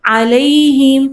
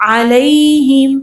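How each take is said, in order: Both takes have the same delivery.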